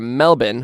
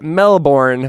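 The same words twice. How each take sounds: First: It is said with an Australian pronunciation. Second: It is said with an American pronunciation. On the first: "which is the Australian way of saying Melbourne" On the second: "That's that's how we Americans say it"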